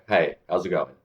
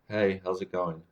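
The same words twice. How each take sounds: First: It is said in a relaxed, confident way. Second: It is said in an awkward, unsure way. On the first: The speaker seems at ease and likeable. The speaker calls it right. "in the second one, it just seems relaxed, confident" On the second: The speaker seems strange and socially uneasy. The speaker calls it wrong. "on the one, I'm awkward"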